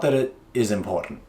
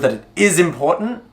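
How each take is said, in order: First: It sounds casual and flat. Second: It sounds urgent and serious.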